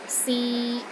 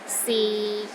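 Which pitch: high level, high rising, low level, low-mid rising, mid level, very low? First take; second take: mid level; low level. First: The pitch stays level in the middle. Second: The pitch stays low and level. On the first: It means to try. "It's pronounced in the middle of your range and it is steady" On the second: It means is. "the sixth tone is low and steady, but not as low as the fourth tone"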